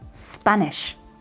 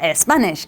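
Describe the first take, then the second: First: The word starts directly with the s sound. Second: An extra vowel sound comes before the word. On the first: The speaker calls it right. "It's stop and Spanish" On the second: The speaker calls it wrong. "we don't say"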